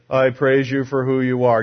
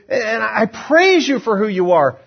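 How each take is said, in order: First: It is said flatly, without emotion. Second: It is said with strong joyful emotion.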